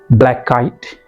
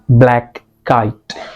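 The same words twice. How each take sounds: First: The two words run together without pause. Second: A slight pause separates the two words. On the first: The speaker calls it right. "mix these two words kind of into one another" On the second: The speaker calls it wrong.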